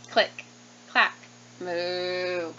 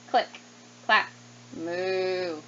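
No difference in how they are said.

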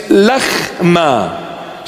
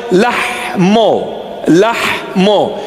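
First: Lahma with a throaty kh and a final a, slowly; Eastern Syriac lahma. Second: Lahmo with a breathy h and a final o; Western Syriac lahmo. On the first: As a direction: say lahma with a rasped kh, ending in a. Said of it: "So in the Eastern dialect". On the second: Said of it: "that dialect for bread". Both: Shown as a demonstration.

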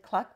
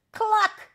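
First: Said in the usual way. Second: Very high, loud squawked cluck; shouted cluck. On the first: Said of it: "this time just meant cluck". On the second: A narrator's reading. Hen shouting for mummy, high loud cluck. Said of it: "shouted the hen".

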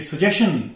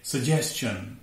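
First: सजेशन ending in a plain "shun"; wrong pronunciation. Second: सजेशन as su-JES-chun, drawn out; correct pronunciation. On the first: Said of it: "नहीं है". (गलत उच्चारण, च के बिना सजेशन) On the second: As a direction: slowly sound "s-ch" in सजेशन. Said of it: "ये है सजेशन". (सही उच्चारण, सजेस्चन) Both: Shown as a demonstration.

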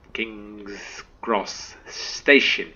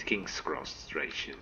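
First: KING'S CROSS STATION slow, word by word; careful correction. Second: STATION stumbled into "stray-shun"; tongue-tied slip. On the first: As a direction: correct yourself, pronouncing STATION cleanly and slowly. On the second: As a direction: trip over STATION with a stray R. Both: Real, not acted. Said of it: "English, [name], English".

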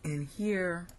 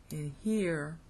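The two takes are said the same way.

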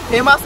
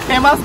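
Both takes have the same delivery.

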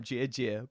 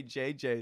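First: J J said like "jie-jie"; mispronounced J J. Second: Said in the usual way. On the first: Retold or imitated. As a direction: turn J J into "jie-jie", as the girlfriend says it. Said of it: "my girlfriend couldn't say his name". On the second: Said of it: "because she couldn't say J J".

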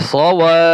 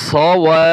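Both takes have the same delivery.

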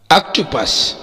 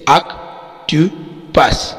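First: Said in the usual way. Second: "octopus" very slowly as ऑक, टो, पस; split into syllables. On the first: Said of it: "तीन syllable है". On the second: Shown as a demonstration. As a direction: pause between the three syllables of "octopus". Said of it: "तीन syllable है जैसे". ("Octopus" کو تین حصوں میں ٹھہر ٹھہر کر)

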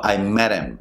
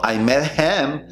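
First: "met him" as "medem"; dropped H. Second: Higher "met HIM" with clear H; full H. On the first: Teacher correcting, reduced pronunciation. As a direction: link "met" into "him" without the H. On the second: Teacher showing the wrong version, full H. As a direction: keep "him" separate and full. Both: Shown as a demonstration.

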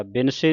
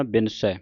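First: ਬਿਨਸੇ ending in a close "-say"; ਬਿਨਸੇ as quick "bin-say"; wrong final vowel. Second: ਬਿਨਸੈ ending in open "-sai" as in "sat"; ਬਿਨਸੈ as "bin-sae", vowel wide; open final vowel. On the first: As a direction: say ਬਿਨਸੇ with plain "e", as the mistake. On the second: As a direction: finish ਬਿਨਸੈ on a falling open "ai". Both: Shown as a demonstration. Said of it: "ਬਿਨਸੇ ਨਹੀਂ ਪੜ੍ਹਨਾ".

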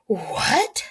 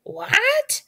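First: Gasped, rising question; shocked gasp. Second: Very high, angry bird-like squawk. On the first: Jack hears the village was burned, shocked gasp. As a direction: gasp it in disbelief. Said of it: "gasped Jack". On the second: Betsy hears about Quartz's loss, angry squawk. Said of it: "squawked Betsy angrily". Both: A narrator's reading.

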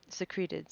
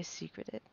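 First: "secreted" stressed on the middle syllable, suh-KREE-tid; "secreted" with a long, stressed "kree"; corrected pronunciation. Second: "secreted" stressed on the first syllable, SEE-kruh-tid; "secreted" said like "secret" with an -ed ending; mispronounced. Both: Real, not acted.

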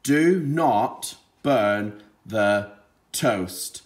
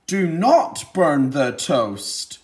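First: "Do not burn the toast." read very slowly, word by word; slow plain reading. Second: Slow, louder command on "Do not burn the toast."; with authority. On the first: Teacher modelling slow reading before the child's turn. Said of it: "Your turn to read it". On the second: Teacher showing how an exclamation mark sounds, with authority. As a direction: say it like a firm order. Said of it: "say it with a bit of authority". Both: Shown as a demonstration.

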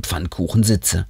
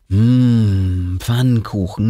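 First: Said in the usual way. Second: A relishing hum, then the word Pfannkuchen drawn out lovingly; savoring pancakes. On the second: A narrator's reading. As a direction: taste the word Pfannkuchen like a treat. Savoring favourite food.

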